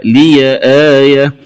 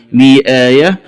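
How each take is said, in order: First: لي آية said "liya aaya"; open ya. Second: Said in the usual way. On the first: Shown as a demonstration. Teacher showing the variant, لي آية linked as "liya". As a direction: add a short a to the ya in لي آية. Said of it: "ياء الإضافة وصلا". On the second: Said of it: "قرأها بفتح".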